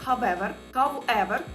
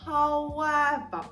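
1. Перший склад закінчується звуком v. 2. Перший склад плавно переходить у звук u. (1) "Найчастіше я чую, що ви вимовляєте його як however" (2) "Якщо ми злиємо дві частинки докупи"

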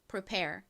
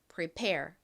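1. 강세는 첫 번째 음절에 있습니다. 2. 강세는 두 번째 음절에 있습니다. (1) "prepare이 아닙니다" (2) "뒷부분을 강조해서 prepare 이렇게 발음해 주셔야 돼요"

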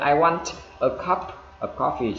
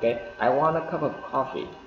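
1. Âm p trong 'cup' được bật hơi đầy đủ. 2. Âm p trong 'cup' bị cắt ngắn, không bật hơi. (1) "anh chị sẽ không bao giờ anh chị nghe người Mỹ người ta nói như thế" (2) "Là chúng ta ngắt âm chi đi là gì ạ, I want a cup"

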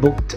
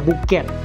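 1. เสียงท้ายคำออกเป็นเสียง 't' สั้นๆ 2. เสียงท้ายคำออกเป็นพยางค์ 'ed' เพิ่มอีกพยางค์ (1) "เราจะออกเสียงเป็นตัว t" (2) "แต่เราไม่ได้ออกเสียงว่า"

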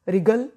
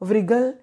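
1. यह r से शुरू होता है, w की आवाज़ नहीं। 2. शुरू में w की आवाज़ बोली जाती है। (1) "डब्ल्यू साइलेंट" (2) "व्रिगल या व्रिंग नहीं बोलना"

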